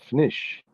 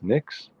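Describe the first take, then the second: First: The word ends with an 'sh' sound. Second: The word ends with a 'ks' sound. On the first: "Is the X pronounced like a sh? Is it fnish?" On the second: "Is the P silent? Is it just Nix?"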